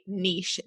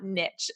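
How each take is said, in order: First: "niche" said as neesh, rhyming with quiche; Canadian pronunciation. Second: "niche" said as nitch, rhyming with pitch; American pronunciation. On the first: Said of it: "I'm Canadian, so I say niche". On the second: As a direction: say "niche" with a short i and a ch ending. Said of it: "not niche". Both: Shown as a demonstration.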